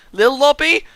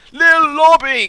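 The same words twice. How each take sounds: First: High, loud questioning call. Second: High, loud call; shouting a name. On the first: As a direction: shout the name across the map. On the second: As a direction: yell the name to get his attention. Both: Real, not acted. Calling to other player.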